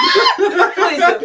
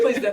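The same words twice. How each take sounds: First: Laughing hard, words squeezed out high and loud; real laughing reply. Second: Said in the usual way. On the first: Real, not acted. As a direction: burst out laughing while you answer. Laughing at friend's crying joke.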